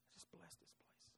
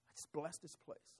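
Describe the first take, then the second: First: Hushed whisper, almost to oneself; very soft, private whispered prayer; whispered blessing. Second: Said in the usual way. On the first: Acted. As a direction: whisper a blessing under your breath. Same blessing repeated under breath.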